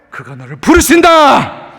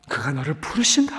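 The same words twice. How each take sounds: First: Said in the usual way. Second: Much lower and softer, 부르신다 rising gently; tender echo of the call; soft repeat. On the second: Shown as a demonstration. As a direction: let it sink in quietly.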